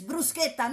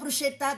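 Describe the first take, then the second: First: The middle consonant is a hard k sound. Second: The middle consonant is a soft sh sound. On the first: The speaker calls it right. "it's bruschetta" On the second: The speaker calls it wrong. "not bruschetta"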